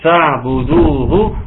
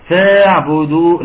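First: فاعبدوه slow with fa joined straight to ain; correct without alif. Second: فاعبدوه said with a wrong a sound after the fa; mock the mistake in فاعبدوه; wrong with alif. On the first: Teacher modeling the correct reading, slow and clear. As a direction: say فاعبدوه slowly, no alif after fa. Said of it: "شيل ألف الوصل خالص". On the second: Teacher mimicking a student's error, wrong pronunciation. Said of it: "لا طبعًا". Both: Shown as a demonstration.

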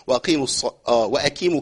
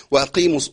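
First: وأقيموا with the q softened toward k; wrong flattened q. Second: وأقيموا with a firm q, cut off; correct q. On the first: Teacher demos the wrong وأقيموا for students. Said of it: "كيمو دي ما تنفعش خالص". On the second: Teacher starts the correct وأقيموا again. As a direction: clean q in وأقيموا. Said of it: "القاف المكسورة". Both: Shown as a demonstration.

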